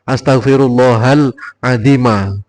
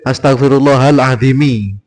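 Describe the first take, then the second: First: The last word ends in an 'a' vowel. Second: The last word ends in an 'i' vowel. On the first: The speaker calls it right. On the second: The speaker calls it wrong.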